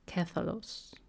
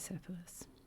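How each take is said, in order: First: The name begins with a k sound. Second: The name begins with an s sound. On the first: This is the original Greek form. "the Greek is spelled with a K" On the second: This is the usual English form. "I hear the English is pronounced"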